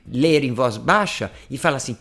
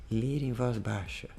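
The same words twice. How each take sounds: First: Said in the usual way. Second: "ler em voz baixa" said much softer and a bit slower; low voice. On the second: Shown as a demonstration. Teacher shows students how to read softly, low voice. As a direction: drop the volume right down on "ler em voz baixa".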